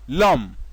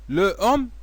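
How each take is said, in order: First: The article's vowel is dropped and joined to the noun. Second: The article's vowel is pronounced separately before the noun. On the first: The speaker calls it right. "c'est vrai" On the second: The speaker calls it wrong. "c'est faux"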